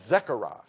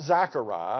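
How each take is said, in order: First: The first syllable sounds like 'Zeck'. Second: The first syllable sounds like 'Zack'. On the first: The speaker calls it right. "It's Zechariah, It's Z-E" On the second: The speaker calls it wrong. "Not Zachariah. It's not Z-A-C-H"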